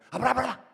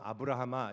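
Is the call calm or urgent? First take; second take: urgent; calm. First: It is called out urgently and loudly. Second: It is read out calmly, without urgency.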